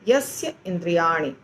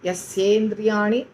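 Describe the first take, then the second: First: The two words are said separately. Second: The two words are merged into one. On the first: "ऐसे हम बोलेंगे" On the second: "थोड़ा difficult होता है"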